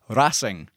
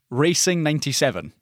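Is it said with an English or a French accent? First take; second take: French; English. First: It is said with a French accent. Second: It is said with an English accent.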